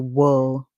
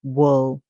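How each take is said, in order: No difference in how they are said.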